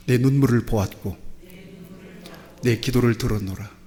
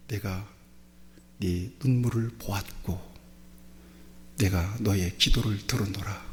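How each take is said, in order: First: Congregation declaration. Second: Low, soft, measured words of God; a lightly voiced, hushed God; solemn divine voice. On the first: Shown as a demonstration. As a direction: proclaim it for all to repeat. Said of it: "같이 고백합시다". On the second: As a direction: speak it gently as God comforting the king. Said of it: "그러면서 주신 말씀이".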